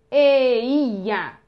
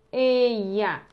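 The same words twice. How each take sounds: First: "Eia" very loud, stretched vowel by vowel; sounded-out vowels. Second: "Eia" said shorter, vowels run together; joined vowels. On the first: Teacher shows three letters joined, loud and drawn-out. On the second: Teacher repeats the joined letters, more compact reading. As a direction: glide through "Eia" in one smoother go. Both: Shown as a demonstration. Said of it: "essas três letras juntas".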